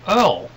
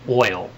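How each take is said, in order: First: The word is said with an 'er' vowel. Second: The word is said with an 'oy' vowel.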